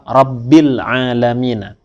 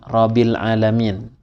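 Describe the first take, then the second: First: The b is held long and doubled. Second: The b is short and single. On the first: The speaker calls it right. "fauqal ba, di atasnya ba" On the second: The speaker calls it wrong.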